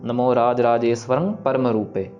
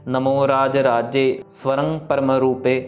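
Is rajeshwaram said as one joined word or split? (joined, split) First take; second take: joined; split. First: Raje and swaram run together as one word. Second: Raje and swaram are said separately with a break. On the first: The speaker calls it right. "इसको हमने पढ़ना ... जोड़ के पढ़ना है" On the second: The speaker calls it wrong. "इसको अलग नहीं करना हमने ... ऐसे नहीं पढ़ना"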